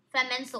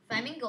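First: "Flamenco" said as fla-MEN-co with an f-l blend; "Flamenco" tried once in a low, quiet voice; reading it as flamenco. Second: "Flamingo" said as fla-MING-go like the bird; "Flamingo" offered as the second reading; "Flamingo" in a low, questioning voice; corrected to flamingo. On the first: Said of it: "Flamingo, what's that mean?". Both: Real, not acted.

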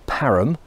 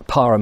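First: Parham said the local way, as the residents call it; local pronunciation. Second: Said in the usual way. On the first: Shown as a demonstration. Walker correcting the place name, local pronunciation. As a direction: Parham in the local way the villagers use. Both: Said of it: "as they like to call it".

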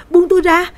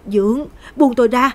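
First: Piercing high shriek, much louder; screaming. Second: A frightened cry, higher and louder; pleading. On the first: Girl screaming at her stepfather to let go, terrified shriek. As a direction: scream it with everything. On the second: Girl struggling against her stepfather, frightened plea. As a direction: begin to panic, push him away. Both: Acted. Lan fighting off attacker.

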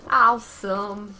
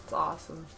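First: Loud, drawn-out Awesome; excited shout. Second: Said in the usual way. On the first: Real, not acted. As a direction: belt it out slowly. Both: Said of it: "repeated louder".

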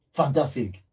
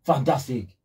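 No difference in how they are said.

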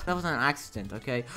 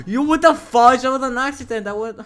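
First: Said in the usual way. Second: High, loud protest; pitched-up outburst of grievance; indignant shout. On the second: Real, not acted. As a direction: yell it as an outraged excuse. Protests being hit back.

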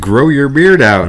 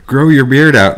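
First: Slow, higher ad-style voice; mock ad voice. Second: Higher, louder ad-style quote; mock ad voice. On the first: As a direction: read it like a cheesy ad. Mocking the ad again. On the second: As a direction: say it like an online ad. First take of ad quote.

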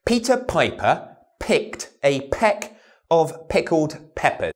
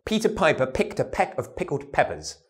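First: Slow, aspirated "Peter Piper" with puffed p's; slow p drill. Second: Said in the usual way. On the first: Shown as a demonstration. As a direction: pop every p slowly.

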